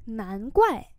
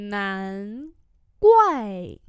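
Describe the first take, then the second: First: Said in the usual way. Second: Two long, separated syllables; slow model reading. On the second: Shown as a demonstration. Teacher modelling "no wonder" for learners, syllable by syllable. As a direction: hold each syllable, punch the falling one.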